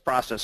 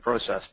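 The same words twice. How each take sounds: First: It is said with a Canadian pronunciation. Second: It is said with a US pronunciation. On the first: "which is Canadian side" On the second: "which is U S side"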